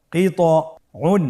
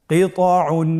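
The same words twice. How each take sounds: First: "কিতউন" broken into parts with a long pause; ভেঙে ভেঙে পড়া. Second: "কিতউন" as one unbroken word, higher-pitched; joined-up reading. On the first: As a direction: say "কিতউন" piece by piece, slowly, higher-pitched. ("কিতউন" থেমে থেমে, ভেঙে ভেঙে) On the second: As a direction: recite "কিতউন" whole, without pauses. ("কিতউন" না ভেঙে একটানে) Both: Shown as a demonstration. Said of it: "বানান ছাড়া ভেঙে ভেঙে পড়তে হয়".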